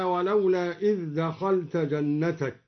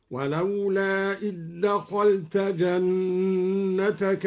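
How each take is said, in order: First: Said in the usual way. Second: Slow chant, إذ دخلت run together as id-dakhalta; merged dhal. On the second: Shown as a demonstration. Teacher shows al-Duri's merging, إذ دخلت as id-dakhalta. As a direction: recite slowly with a doubled d in إذ دخلت. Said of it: "أدغم الدوري الذال في الدال".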